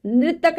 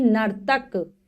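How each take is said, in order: First: "नृतक" said as nri-tak; mispronounced word. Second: "नर्तक" said as nar-tak; correct pronunciation. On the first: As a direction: say nritak for "नृतक", R before the vowel. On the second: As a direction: say nar-tak for "नर्तक", R closing the first syllable. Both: Shown as a demonstration. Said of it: "नृतक नहीं".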